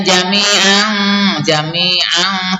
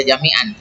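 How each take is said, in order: First: Sung, jami'an slowly, with hidden nasal n; hummed ending of jami'an. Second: Jami'an with a short, plain n; wrong unhummed jami'an. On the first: Teacher showing the correct reading, long hum ending jami'an. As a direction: stretch jami'an's final n into a hum. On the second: Teacher showing what to avoid, short n in jami'an. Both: Shown as a demonstration. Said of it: "tidak dibaca jami'an".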